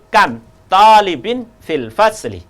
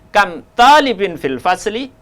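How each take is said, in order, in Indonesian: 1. Diucapkan dengan intonasi pernyataan. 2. Diucapkan dengan intonasi pertanyaan. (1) "ini pemberitahuan" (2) "kalau saya membacanya salah ... intonasi ini menandakan pertanyaan"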